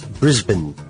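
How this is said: It is said with an Australian pronunciation. The speaker calls it right. "he says, it's Brisbane"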